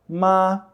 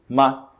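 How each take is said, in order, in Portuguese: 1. O tom permanece nivelado e alto. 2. A sílaba é curta, sem contorno tonal. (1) "o primeiro tom, que é o tom plano" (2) "sem tom, da forma como a gente pronunciaria em português"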